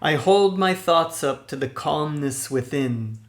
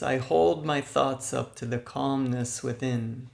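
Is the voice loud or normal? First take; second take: loud; normal. First: It is said loudly with lots of energy. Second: It is said at ordinary conversational volume. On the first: "in a loud speaking voice, loud energetically" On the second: "In a normal speaking voice"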